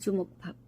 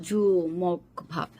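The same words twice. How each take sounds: First: জুমক ভাব said fast and run together; quick, in one go. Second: জুমক ভাব stretched out very slowly, each syllable separate. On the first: Teacher shows জুমক ভাব as spoken fast in conversation. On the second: Teacher drills the rice-ball name জুমক ভাব very slowly. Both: Shown as a demonstration. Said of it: "তাড়াতাড়ি করে বলার".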